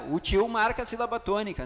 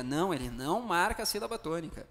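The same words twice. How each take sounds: First: Higher, lightly acted pupil's query; mock student putting a doubt to the teacher; student's question. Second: Said in the usual way. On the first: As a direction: ask it as a student would, pitched up. Voices a student's question, then answers it.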